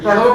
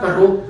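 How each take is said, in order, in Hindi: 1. यह ड़ वाली ध्वनि के साथ बोला जाता है। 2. यह ड़ वाली ध्वनि के बिना बोला जाता है।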